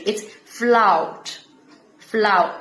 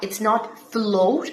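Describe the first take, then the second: First: "float" said as "flout", with an OW vowel; Brummie O. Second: "float" with a standard O vowel; "float" said the usual way; wrong vowel. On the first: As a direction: turn the O of "float" into "out". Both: Shown as a demonstration. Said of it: "O की sound है out".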